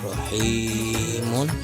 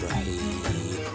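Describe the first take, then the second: First: The word ends with a nasal 'un' sound. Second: The word ends without any nasal 'un' sound. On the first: This is the written form with tanwin. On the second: The reader stops on this word. "terus waqaf, maka dibaca jadi rahim"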